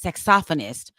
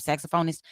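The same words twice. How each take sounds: First: Saxophonist stressed on the second syllable, sax-OPH-o-nist; correct pronunciation. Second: Saxophonist with stress on sax and long -phone-; wrong pronunciation. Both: Shown as a demonstration. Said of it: "I've been saying it wrong".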